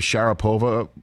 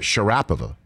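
First: The stress is not on a middle syllable. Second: The stress is on a middle syllable. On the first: The speaker calls it wrong. "we always say Maria Sharapova" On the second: The speaker calls it right. "you put the accent on the middle syllable"

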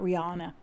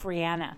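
First: The ending does not sound like Anna. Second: The ending sounds like the name Anna. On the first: This is how other people say her name. The speaker calls it wrong. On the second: This is how she says her own name. The speaker calls it right.

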